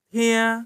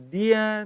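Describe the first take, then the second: First: The word begins with a voiceless t sound. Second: The word begins with a voiced d sound. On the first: The speaker calls it right. "jadi harus pakai T ya" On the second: The speaker calls it wrong. "Kalau kamu pakai D, jadinya dia"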